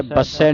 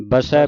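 First: ਬਸੈ with a hard, doubled ਸ; wrong hard pronunciation. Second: ਬਸੈ with a single, light ਸ; soft pronunciation. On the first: Teacher rules out second take, ਬਸੈ with doubled ਸ. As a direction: lean on a long ਸ inside ਬਸੈ. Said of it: "ਬਸੈ ਨਹੀਂ ਕਹਿਣਾ". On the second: Teacher models the first take, ਬਸੈ soft with single ਸ. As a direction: glide through ਬਸੈ, no doubled ਸ. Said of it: "ਇਹ ਵੀ ਪੋਲਾ ਉਚਾਰਨ ਕਰਨਾ". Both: Shown as a demonstration.

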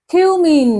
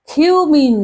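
Both takes have the same delivery.

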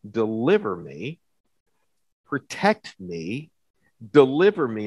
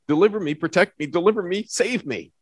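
First: Said in the usual way. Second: Fast and higher, tumbling quick pleas; rapid urgent plea. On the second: Shown as a demonstration. Preacher to congregation showing David's quick prayers, fast and urgent. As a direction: fire them off like quick popcorn prayers. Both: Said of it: "Those, those four prayers, right?".

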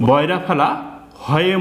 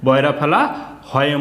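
Both takes have the same delivery.

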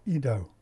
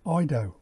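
First: "ido" said as EE-doh; "ido" with an "ee" first syllable; alternative pronunciation. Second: "ido" said as EYE-doh; "ido" with an "eye" first syllable; Greek pronunciation. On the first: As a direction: open "ido" with an ee sound, as in see. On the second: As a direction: open "ido" with a long i, as in eye. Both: Shown as a demonstration. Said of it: "is the Greek word".

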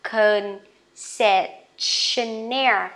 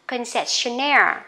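First: Concessionaire said slowly, stress on -naire; slow model word. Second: Concessionaire at natural pace, stress on -naire; normal speed word. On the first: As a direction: stretch Concessionaire out. (đọc chậm Concessionaire) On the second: (đọc Concessionaire tốc độ thường) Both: Shown as a demonstration. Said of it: "Rồi tiếp nè".

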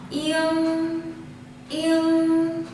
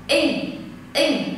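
First: "yên" with a back ng held on through the nose; "yên" drawn out into a nasal hum; lingering nasal ending. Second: "In" cut off with no nasal resonance after it; "in" ending at once, nothing ringing on; no lingering ending. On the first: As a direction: let "yên" ring on, long and higher. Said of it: "nó có một cái dư âm ở lại". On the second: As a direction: stop "in" short on the front nasal. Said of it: "không có một cái dư âm nào sau". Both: Shown as a demonstration.

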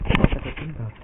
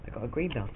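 First: "green belt" called out much louder; proud shout. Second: Said in the usual way. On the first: Real, not acted. Kid proudly shouts his karate belt to viewers. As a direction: announce it loud and proud.

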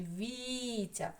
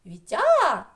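First: Вітя as VI-tia, first і drawn out slowly; stress on first syllable. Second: Вітя stressed wrongly as vi-TIA, я high and loud; stress on last syllable. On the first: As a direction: stretch the і of Вітя, drop the ending. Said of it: "наголос буде на перший і". (Вітя з протяжним наголосом на і) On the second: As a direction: punch the final я of Вітя. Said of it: "на а буде наголос?". (Вітя з високим голосним наголосом на я) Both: Shown as a demonstration.

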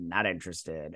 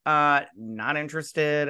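First: Not interested dropped low and soft, final; flat repeat. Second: Said in the usual way. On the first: Shown as a demonstration. Vlogger imagining turning down the call, a low quiet final refusal. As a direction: say not interested again lower and quieter, done with it. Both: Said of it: "I'll say it again".

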